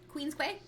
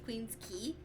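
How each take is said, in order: First: The second word is sounded out as kway. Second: The second word is said like key. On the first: The speaker sounded the word out. The speaker calls it wrong. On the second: This is the accepted local name. The speaker calls it right.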